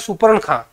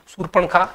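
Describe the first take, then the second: First: The r sound comes after the p sound. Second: The r sound comes before the p sound. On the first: The speaker calls it wrong. "ये हमारा गलत उच्चारण हो जाएगा" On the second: The speaker calls it right. "सूरपण खा शुद्ध शब्द माना जाएगा"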